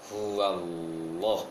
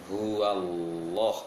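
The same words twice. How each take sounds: The two takes are said the same way.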